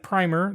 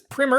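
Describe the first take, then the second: First: It is said the way the spelling suggests. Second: It is said with a different first vowel. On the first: The speaker calls it wrong. "although it looks like primer" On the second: The speaker calls it right. "the proper way to pronounce it is primer"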